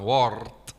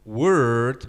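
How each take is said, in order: First: The vowel sounds like 'or'. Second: The vowel sounds like 'er'. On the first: The speaker calls it wrong. "bukan word yang seperti banyak orang bilang di sini" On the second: The speaker calls it right. "tapi er"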